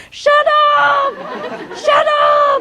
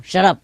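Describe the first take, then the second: First: "Shut up" squawked very high, drawn out; mock parrot screech on "Shut up"; long, noisy scolding. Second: Short. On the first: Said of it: "if it take too long and too noisy". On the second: Retold or imitated. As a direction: say "Shut up" briefly at usual pitch. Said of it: "sometimes short".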